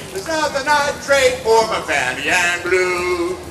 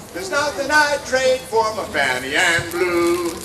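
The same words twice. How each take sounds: Both takes have the same delivery.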